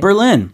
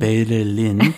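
First: The name is said with English pronunciation. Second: The name is said with Korean pronunciation. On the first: "베를린의 영어 발음" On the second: "베를린. 하고 많이 다르네요"

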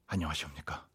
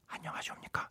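First: It is said in an ordinary speaking voice. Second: It is said quietly, with the volume reduced.

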